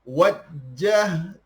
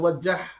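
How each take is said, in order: First: The j sound is held and doubled. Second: The j sound is short and single. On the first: The speaker calls it right. "Jim ada sabdu. Berarti kita kena sebut jim tu dua kali" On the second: The speaker calls it wrong. "bukan wajah"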